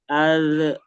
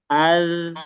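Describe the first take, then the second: First: The final consonant ends with a short bounce. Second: The final consonant flows smoothly and lasts longer. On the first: The speaker calls it wrong. "tanpa sadar dia tarik seperti itu" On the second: The speaker calls it right. "dialirkan dengan sempurna"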